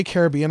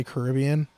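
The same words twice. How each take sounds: First: Caribbean with the stress on BE, ca-rib-BE-an. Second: Caribbean with the stress on RIB. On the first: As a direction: say Caribbean as care-uh-BEE-un. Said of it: "or do you ever say Caribbean". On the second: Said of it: "do you say Caribbean all the time". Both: Shown as a demonstration.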